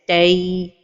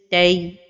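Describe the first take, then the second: First: The ending is drawn out. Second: The ending is kept short. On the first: The speaker calls it wrong. "give lots of time at the end of pronunciation" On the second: The speaker calls it right. "the right pronunciation is"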